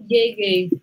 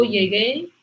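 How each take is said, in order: First: "llegué" said as LLE-gue, first syllable stressed. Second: "llegué" stressed on the last E; stress on final syllable. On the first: Teacher contrasts the subjunctive, first-syllable stress on "llegué". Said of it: "cae en la E aquí y no aquí". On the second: Teacher models the preterite for students, final-syllable stress on "llegué". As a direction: say "llegué" slowly, landing on the final é. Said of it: "fijaos con la entonación". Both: Shown as a demonstration.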